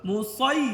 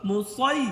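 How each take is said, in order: Both takes have the same delivery.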